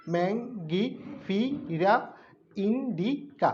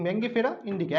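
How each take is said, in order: First: ম্যাঙ্গিফিরা drawn out very slowly, each syllable apart, then indica. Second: Said in the usual way. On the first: Shown as a demonstration. Teacher showing students how to split a Latin name, very slow. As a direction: stretch out every syllable for the class. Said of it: "ভেঙে ভেঙে বললে সুবিধা হয় যে উচ্চারণ করতে". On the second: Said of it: "একসাথে বলতে পারো পরে".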